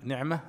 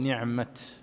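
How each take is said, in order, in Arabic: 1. تنتهي الكلمة بصوت الهاء. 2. تنتهي الكلمة بصوت التاء. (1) "بالهاء" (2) "يقف بالتاء"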